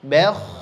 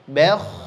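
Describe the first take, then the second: First: The b is light and the kh heavy. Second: The b is light and the kh heavy.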